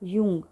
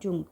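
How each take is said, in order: First: The word begins with a Y sound. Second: The word begins with a J sound. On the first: The speaker calls it right. "इसको बोलते हैं यूंग" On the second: The speaker calls it wrong. "Not जुंग"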